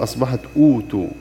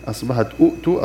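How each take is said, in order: First: أوتوا with one hamza, then a long و vowel; hamza replaced by long u. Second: أؤتوا with a clear second glottal stop before the و; original hamza form. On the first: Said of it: "والهمزة الساكنة أبدلت واوا". (أوتوا بمد الواو دون الهمزة الثانية) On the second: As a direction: say أؤتوا with both hamzas sounded, the second one closed. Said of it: "وأصلها أؤتوا". (أؤتوا بهمزتين واضحتين) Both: Shown as a demonstration.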